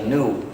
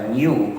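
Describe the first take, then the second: First: The word begins with a plain n sound. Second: The word begins with a palatal ny sound. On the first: The speaker calls it wrong. "no debe pronunciarse new porque podría confundir mucho a la gente" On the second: The speaker calls it right. "en castellano se puede pronunciar New como si comenzara por ñ"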